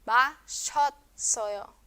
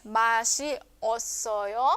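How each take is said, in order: First: 마셨어요 as "ma-shot-so-yo", shi and o fused; contracted to one syllable. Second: 마시 osoyo slowly, "shi" and "o" separate; uncontracted form. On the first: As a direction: merge the middle of 마셨어요 into "shot". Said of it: "se hace una sola". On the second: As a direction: draw out 마시, then a distinct osoyo. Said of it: "sino que se reduce en una sola sílaba". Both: Shown as a demonstration.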